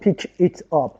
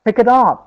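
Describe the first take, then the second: First: Each word is said separately. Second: The words run together without breaks. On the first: The speaker calls it wrong. "نمیگیم" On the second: The speaker calls it right. "جانکچر میگیم"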